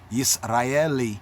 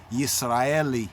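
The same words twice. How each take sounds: First: It is pronounced the Hebrew way, starting with 'yis'. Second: The same.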